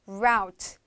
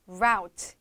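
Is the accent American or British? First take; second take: American; American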